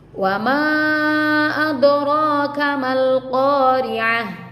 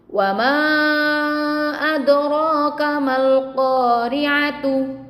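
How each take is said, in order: First: The last word ends with a soft h sound. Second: The last word ends with a full t sound. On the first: The reading stops at this word. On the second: The reading continues past this word.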